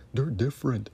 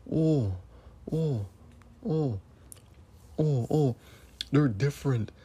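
First: Sarcastic mock voice with a changed timbre; mocking the critics. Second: Mock whiny voice of the critics, slightly raised. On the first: Host mocks critics who defend TV networks, sneering mock voice. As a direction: parrot their excuse, sneering. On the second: Ranting host mocks critics who defend TV networks, sarcastic mock voice. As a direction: sarcastically parrot their excuse. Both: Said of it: "That's what you're saying".

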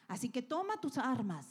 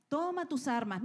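First: Said in the usual way. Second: Toma tus armas said higher and more pressing; rally them, push it harder; urgent call. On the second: Acted. Preacher urging the congregation to take up their weapons, more pressing.

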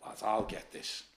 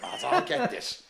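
First: Barely voiced, low and quiet; hushed retelling. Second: High and laughing through the words; laughing retelling. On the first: Mate quietly offering to handle the fighter, murmured. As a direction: mutter it under your breath like a mate stepping in. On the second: Retold or imitated. Retelling mate stepping in, laughing high and slow. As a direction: crack up while quoting your mate. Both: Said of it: "Me mate went".

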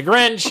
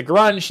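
First: Said in the usual way. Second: "Grunch" with an "uh" vowel in place of "ih"; mispronounced Grinch. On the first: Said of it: "instead of the Grinch". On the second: Retold or imitated. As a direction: say "Grunch", as children garbling the name Grinch. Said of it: "wanna call it the Grunch instead of the Grinch".

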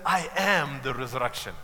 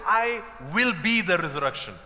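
First: "am" weighted firmly to mark the present; stress on am. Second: "will" leaned on to mark the future tense; "I will be", with weight on "will"; stress on will. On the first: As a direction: land hard on "am" as the true claim. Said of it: "No, he said". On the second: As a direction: press the word "will" as the wrong version. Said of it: "He's not saying". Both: Shown as a demonstration.

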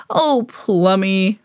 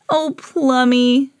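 First: Lightly voiced man, indulgent; Rupert. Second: Slow, fond reassurance; higher of two owners' tender replies; Emma. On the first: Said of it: "said Rupert". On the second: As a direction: draw the pet name out lovingly. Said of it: "said Emma". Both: A narrator's reading.

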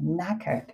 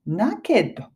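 First: "naked" said as British knackered, vowel between ke and ka; soft, falling NAK-uhd for "naked", no clear KE; real pronunciation. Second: Knackered misread as "naked", with a clear KE; spelling-based mispronunciation. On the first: Teacher showing learners how it is really pronounced, correct pronunciation. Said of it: "実際に発音するときは". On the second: Teacher showing how the spelling misleads learners, spelling pronunciation. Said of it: "このスペルを見ると". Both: Shown as a demonstration.

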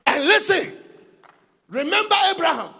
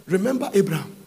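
First: Higher, pleading call; higher voiced plea to remember Abraham; lifted plea. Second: Said in the usual way. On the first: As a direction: reach up into the plea. Preacher lifts voice on Moses' plea.

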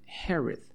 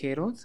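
First: "Herod" as HEH-red, weak second vowel, falling; "Herod" with a reduced ending, voice dropping; correct English pronunciation. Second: "Herod" read Spanish-style with a full "o", heh-ROD, rising; "Herod" sounded out from its spelling; spelling pronunciation. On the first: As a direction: say "Herod" the English way, without a full "o". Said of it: "pero se pronuncia Herod". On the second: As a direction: say "Herod" as it is written, clear "o". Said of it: "se escribe Herod". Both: Shown as a demonstration.

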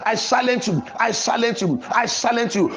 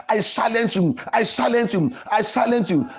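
The two takes are said the same way.

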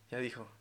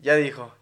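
First: Much softer, copying from behind; a classmate's muttered echo; soft mocking copy from the back; quiet echo. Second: His own catchphrase, called out; loud catchphrase; louder quip. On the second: Retold or imitated. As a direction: say it loud and punchy. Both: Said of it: "Y él".

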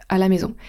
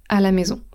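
No difference in how they are said.

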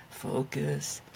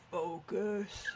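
First: Low, growled demon teacher voice; a stern demon teacher. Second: Low, quiet demon imitation; a hint of a demon teacher; imitating the demon voice. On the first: Pretend. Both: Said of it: "in a demon voice?".

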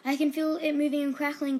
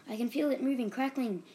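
First: Loud, high, breathless gasping alarm; gasped. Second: Gasped. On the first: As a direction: gasp it out in fright. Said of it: "gasped Bobby". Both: A narrator's reading.

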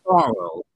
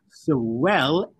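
First: "Sorrow" said with a low falling ending; sad down sound. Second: "Sorrel" said with a brighter, level ending; happy up sound. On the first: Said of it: "Words that end in a down sound are sad". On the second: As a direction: keep "Sorrel" up, no falling end. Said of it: "Sorrel is happy". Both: Shown as a demonstration.

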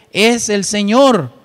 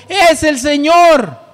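First: Said in the usual way. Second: Higher, louder and slow exclamation; exclaimed. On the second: Shown as a demonstration. Preacher showing the church John's exclamation, exclaimed. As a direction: shout it out as the text's exclamation marks demand. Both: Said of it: "tiene signos de exclamación".

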